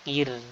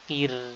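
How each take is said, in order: No difference in how they are said.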